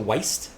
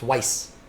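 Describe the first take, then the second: First: The word ends with a T sound. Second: The word ends with an S sound. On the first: The speaker calls it wrong. "I want to add a T to Weist" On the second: The speaker calls it right. "but it's not. It's Weiss"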